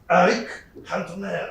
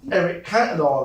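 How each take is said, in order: First: The name is said in a French accent. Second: The name is said in a plain English accent. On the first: The speaker calls it right. "In France, they all say Eric Cantona" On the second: The speaker calls it wrong. "I can't ever say Eric Cantona"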